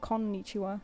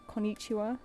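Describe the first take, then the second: First: The emphasis is on the syllable kon. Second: The emphasis is on the syllable ni. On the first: The speaker calls it right. "they want you to put emphasis on the kon" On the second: The speaker calls it wrong. "a lot of Westerners put emphasis on the ni"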